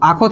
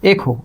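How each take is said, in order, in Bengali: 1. প্রথম স্বরধ্বনিটি 'a'। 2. প্রথম স্বরধ্বনিটি 'e'। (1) "আখো আখো আখো থেকে" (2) "এই আটা এ হয়ে গেছে"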